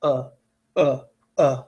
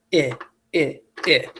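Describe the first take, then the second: First: Short, separate, slack "uh" sounds; lazy schwa. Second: Short, separate "eh" sounds like the i in kit; short I schwa. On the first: Teacher modelling the most common schwa, lazy "uh". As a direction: drop each "uh" out with no effort. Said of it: "Most of the time it's". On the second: Teacher modelling the rarer schwa, a short lazy "eh". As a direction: give each "eh" as a brief, slack short i. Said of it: "it'll go". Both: Shown as a demonstration.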